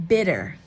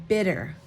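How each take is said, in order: The two takes are said the same way.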